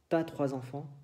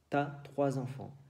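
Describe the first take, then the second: First: The pronoun is shortened and joined to 'as'. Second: The same.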